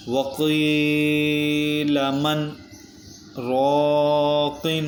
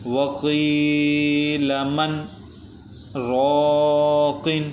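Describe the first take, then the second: First: Slow chant with a held breath-pause after مَنْ before رَاقٍ; recited with a sakta pause. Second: Slow, drawn-out melodic tajweed recitation; flowing Quran recitation. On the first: Teacher repeats the verse showing the sakta, slow chanted pause. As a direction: stop the voice after مَنْ without breathing, then go on. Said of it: "دوبارہ پڑھتے ہیں". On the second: Teacher recites the verse for the students, slow melodic chant. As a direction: chant the verse slowly and evenly. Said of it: "پہلے اس کو رواں پڑھتے ہیں". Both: Shown as a demonstration.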